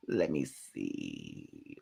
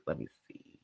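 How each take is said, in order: First: Low, slow and much softer musing; slow low murmur; slow mutter. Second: Whispered, fading almost to nothing. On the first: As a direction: think aloud while drifting off. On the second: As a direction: let the words trail off into a breath. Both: Real, not acted.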